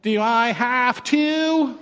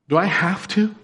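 First: It is asked in a whiny, childish tone. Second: It is asked in a plain, neutral tone.

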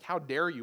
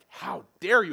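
First: It sounds mildly offended, not very angry. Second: It sounds furious and full of rage.

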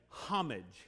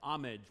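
First: The word begins with an h sound. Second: The word begins without an h sound. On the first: This is how it is said in Great Britain. "They use the H" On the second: This is how it is said in the West. "without the H being pronounced"

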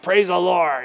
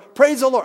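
First: It is said half-heartedly, without meaning. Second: It is said crisply and sincerely.

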